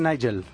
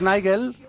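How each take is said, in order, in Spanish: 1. El nombre se dice con pronunciación inglesa. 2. El nombre se dice con pronunciación española. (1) "oyes a los ingleses y dicen Nigel" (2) "aquí decimos, tendemos a decir Nigel"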